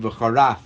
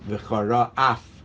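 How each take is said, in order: First: The two words run together without a gap. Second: A small gap separates the two words. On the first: It sounds like blasphemy. The speaker calls it wrong. "it shouldn't sound like you're saying v'charaf" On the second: God will be angry. The speaker calls it right. "You got to put a space"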